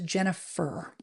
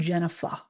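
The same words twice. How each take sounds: First: The final R sound is clearly pronounced. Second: The final R sound is dropped, Boston style. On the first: The speaker calls it right. "There's an E R at the end of my name" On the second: The speaker calls it wrong.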